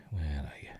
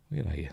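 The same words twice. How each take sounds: First: Whispered to himself while searching. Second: Said in the usual way. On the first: Real, not acted. Scrubbing through the film, whispering where are you. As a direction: breathe the question out with no voice.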